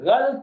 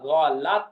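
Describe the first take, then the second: First: The L is followed directly by T, no vowel. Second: A short 'a' vowel comes between L and T. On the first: The speaker calls it wrong. "ये लफ्ज गलत नहीं होता" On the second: The speaker calls it right. "लाम के ऊपर जबर है"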